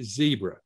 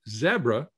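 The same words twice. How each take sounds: First: The first syllable has a long 'ee' vowel. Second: The first syllable has a short 'e' vowel.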